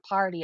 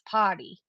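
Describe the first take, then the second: First: It is said with the r pronounced. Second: It is said in a Fall River accent.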